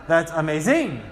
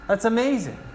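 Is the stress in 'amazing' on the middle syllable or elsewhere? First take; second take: elsewhere; middle. First: The stress falls on another syllable. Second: The stress falls on the middle syllable. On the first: The speaker calls it wrong. "That would be strange" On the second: The speaker calls it right. "May is where the accent is"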